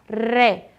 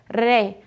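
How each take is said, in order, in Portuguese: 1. O R é um leve toque da língua. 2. O R é um leve toque da língua.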